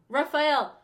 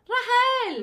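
First: The name is said with the f sound. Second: The name is said without the f sound.

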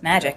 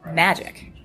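First: The word is said plainly, without emphasis. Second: The word is set off and emphasized. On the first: It is ordinary magic. "It's not just magic" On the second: It is a special, important kind of magic. "there was a pause, there was kind of a little emphasis on the word because it's important"

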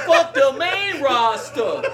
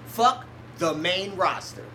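First: It is said in an imitated, put-on voice. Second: It is said in the speaker's natural voice.

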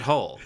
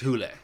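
First: The vowel sounds like 'oh'. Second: The vowel sounds like 'oo'. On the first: This is how the film says it. "in this movie, they pronounce it Hole" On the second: This is how it is said in its native language. "I think it's pronounced like Hule. In the like in its native tongue"

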